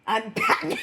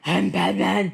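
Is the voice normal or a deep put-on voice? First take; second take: normal; deep. First: It is said in the speaker's normal voice. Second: It is said in a deep Batman voice.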